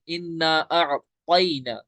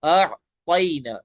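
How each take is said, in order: First: अअतैना said very slowly with a stretched opening; teacher reciting the verse; careful recitation. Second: अअतैना very slowly with the light ता; correct ta. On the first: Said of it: "ये वाला ता नहीं". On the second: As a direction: stretch अअतैना with the right ता. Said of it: "तो ये ता आप पढ़िए". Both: Shown as a demonstration.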